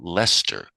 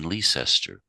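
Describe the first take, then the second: First: The name is pronounced the local way. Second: The name is pronounced the outsider way. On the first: The speaker grew up in that area. "If you grew up in the area, you refer to it as" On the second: The speaker did not grow up in that area. "If you didn't grow up in that area, you would say"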